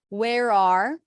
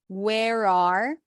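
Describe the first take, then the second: Both takes have the same delivery.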